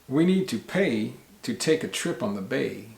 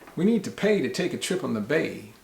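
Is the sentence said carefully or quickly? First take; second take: carefully; quickly. First: It is said slowly, with each word clear. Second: It is said quickly, as in everyday speech.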